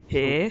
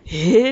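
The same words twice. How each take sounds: First: It sounds flat and uninterested. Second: It sounds interested and engaged. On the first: The listener does not really care. "別にも別興味なくて、へえなのか" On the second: The listener is genuinely curious. "興味があって、で出てきた、へえなのか"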